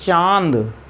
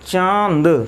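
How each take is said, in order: First: The vowel is said through the nose. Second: The same.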